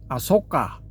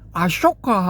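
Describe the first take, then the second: First: The second syllable starts with a plain 's' sound. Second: The second syllable starts with an 'sh' sound. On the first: This follows the Pali-style reading of the name. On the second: This follows the original Devanagari spelling of the name.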